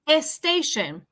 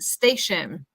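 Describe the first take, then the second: First: An extra e vowel comes before the s. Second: The word starts directly with the s sound. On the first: The speaker calls it wrong. "the tendency is to say e, e station" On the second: The speaker calls it right. "Tenemos como una letra S bien pronunciada"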